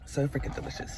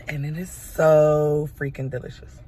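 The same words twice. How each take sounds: First: Unvoiced, savouring whisper. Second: Loud, emphatic gushing about the taste. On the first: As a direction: whisper it to yourself in delight. Repeats praise of the latte. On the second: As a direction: rave about it, leaning on so. Raving about her mocha latte. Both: Real, not acted.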